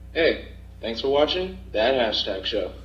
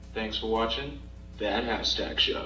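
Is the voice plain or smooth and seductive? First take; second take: plain; smooth and seductive. First: It is said in a plain, quick voice. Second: It is said in a smooth, seductive radio voice.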